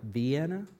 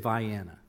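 First: It sounds like the name of the city Vienna. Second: It sounds different from the city name Vienna. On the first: The speaker calls it wrong. "It's spelled like Vienna, but don't say it that way down there" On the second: The speaker calls it right. "Vianna is the way they say it"

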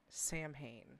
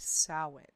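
First: The word is read as its English spelling suggests. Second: The word is said with its Gaelic pronunciation. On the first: The speaker calls it wrong. "It is not Samhain" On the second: The speaker calls it right. "It is a Gaelic word, and the proper way to pronounce it is"

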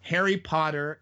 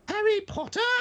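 First: It is said in the speaker's normal voice. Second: It is said in a special put-on character voice.

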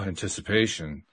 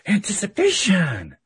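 First: The word is said without excitement. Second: The word is said with excitement. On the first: The outcome is awaited with unease. "that's an entirely different vibe" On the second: The outcome is looked forward to. "it's exciting"

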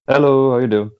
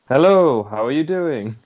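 First: It is said with flat, low energy. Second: It is said with more vigour and energy.

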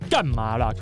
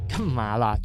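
First: It is said in a fierce, harsh tone. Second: It is said in a shy, coy tone. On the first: The person is annoyed. The speaker calls it wrong. "不是很凶的 ... 不是这个" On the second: The person is flustered and flattered. The speaker calls it right. "是干嘛啦，就是她已经脸红了"

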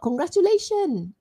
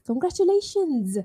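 First: The word ends without an S sound. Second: The word ends with an S sound. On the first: The speaker calls it wrong. "So it's not congratulation without an S" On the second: The speaker calls it right. "Congratulations with an S"

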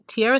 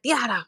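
First: The name is said in the speaker's plain accent. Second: The name is said in a Hispanic accent. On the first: It sounds boring. The speaker calls it wrong. "Tierra sounds boring the way I say it" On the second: It sounds cute. The speaker calls it right. "when Hispanics say my name, they're like"

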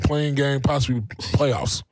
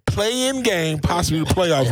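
First: The phrase is said at normal volume. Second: The phrase is said loudly.

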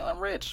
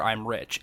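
First: It is said in a cocky, showy way. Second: It is said flatly and matter-of-factly. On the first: It is meant as a boastful joke. "he doesn't say it like Tony Stark would be like" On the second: It is stated as a plain fact. "It's almost like it's just like matter of factly"

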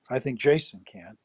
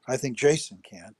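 First: The stress is on the word 'Jason'. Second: The same.

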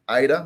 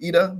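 First: The name is said with an English pronunciation. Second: The name is said with a Spanish pronunciation. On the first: "I think that's how you're going to say it" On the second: "unless they're Spanish and saying Ida"

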